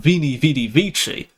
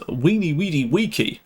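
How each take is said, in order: First: It uses the ecclesiastical Latin pronunciation. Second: It uses the classical Latin pronunciation. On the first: "that's ecclesiastical" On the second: "To pronounce that classical is"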